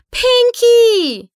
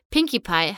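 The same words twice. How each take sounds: First: "Pinkie!" screamed high and loud, falling; frantic scream. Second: Said in the usual way. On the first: A narrator's reading. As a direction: cry out "Pinkie!" in panic. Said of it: "schrie Twilight". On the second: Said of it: "„Pinkie!“, schrie Twilight".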